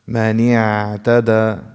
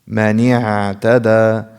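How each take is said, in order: The two takes are said the same way.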